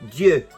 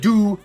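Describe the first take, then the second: First: The vowel is a rounded French 'eu' sound. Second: The vowel is an English 'oo' sound. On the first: The speaker calls it right. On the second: The speaker calls it wrong.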